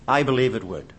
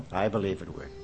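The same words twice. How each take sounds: First: Said in the usual way. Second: Much softer, lower repeat; quiet echo. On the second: Shown as a demonstration. Preacher repeating his verdict to himself, hushed. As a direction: let it fall away to yourself. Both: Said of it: "repeated conviction".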